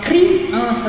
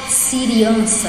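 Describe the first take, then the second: First: The c and r are said together as one cluster. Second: A short vowel separates the first consonant and the r. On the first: The speaker calls it right. "eu falo criança" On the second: The speaker calls it wrong. "Eu não falo siriança"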